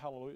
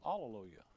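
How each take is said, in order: First: The word begins with an h sound. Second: The word begins directly with a vowel. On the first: This is the familiar modern form. "We stick an H in there" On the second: This is the form found in the original text. "no H"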